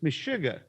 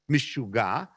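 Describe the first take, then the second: First: It is said in an Old Polish accent. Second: It is said in an Israeli accent.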